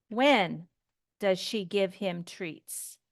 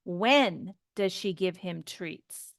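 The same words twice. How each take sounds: First: WHEN stressed, falling at the end; wh-question with falling intonation; falling question tune. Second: Slow, stressed When, falling tune on treats; slow, careful wh-question intonation. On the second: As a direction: stretch When out, slowly, and fall at the end. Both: Shown as a demonstration. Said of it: "Notice my intonation".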